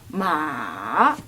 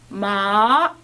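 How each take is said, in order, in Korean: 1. 아주 낮게 떨어졌다가 올라가요. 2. 중간 높이에서 높은 높이까지 올라가요. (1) "끝이 올라가기 전에 한번 휘었다가 가죠" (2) "한 중간쯤부터 끝에까지 올라간다"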